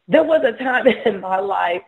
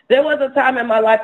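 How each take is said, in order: First: Starts the line and breaks into a laugh. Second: Said in the usual way. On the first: Real, not acted. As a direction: chuckle through the memory. Laughs mid-sentence recalling past.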